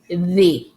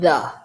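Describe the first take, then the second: First: The vowel in 'the' is a long ee. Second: The vowel in 'the' is a short uh. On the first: The speaker calls it right. "to be correct, you have to say in the" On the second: The speaker calls it wrong. "you could say in the. It's not a big mistake"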